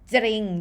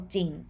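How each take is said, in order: First: The first consonant is followed by an r sound. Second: The first consonant has no r sound after it. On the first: The speaker calls it wrong. "you don't pronounce จริงนะ" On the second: The speaker calls it right. "you just only pronounce จอจาน sound without the cluster รอเรือ so จริง"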